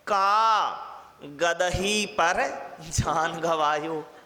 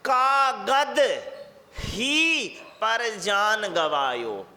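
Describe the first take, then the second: First: The break comes after kaa, before gadahi. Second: The break comes after kaagad, before hi.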